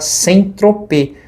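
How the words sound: The name is said with a Brazilian Portuguese pronunciation. This is the locally adapted form of the name. "aqui no Brasil ficou popularmente adaptado para sem tropê"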